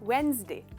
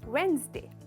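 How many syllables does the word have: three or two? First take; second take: two; two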